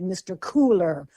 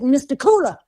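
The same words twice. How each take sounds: First: The final R sound is clearly pronounced. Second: The final R sound is dropped. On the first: This is a pronunciation the speaker's community would not use. The speaker calls it wrong. "don't pronounce that hard R. I would never have said" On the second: This is how the speaker's great-grandfather would have said it. The speaker calls it right. "pronounce that term as your great-grandfather would have said it"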